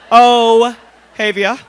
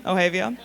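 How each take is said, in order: First: Ohavia drawn out slowly and much louder, laughing; laughing name call. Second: Said in the usual way. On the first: Real, not acted. Host calls out Ohavia's name to the room, laughing.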